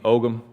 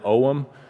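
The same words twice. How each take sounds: First: It is said the American way, G pronounced. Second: It is said the Irish and English way, G silent.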